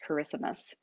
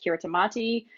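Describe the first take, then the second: First: It sounds like the English word 'Christmas'. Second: Every written syllable is sounded out in full. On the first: The speaker calls it right. "it is actually pronounced" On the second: The speaker calls it wrong. "most people pronounce it"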